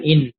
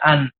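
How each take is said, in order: First: The word begins with an 'i' vowel. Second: The word begins with an 'a' vowel. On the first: The speaker calls it wrong. "bukan in" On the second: The speaker calls it right. "dibaca an"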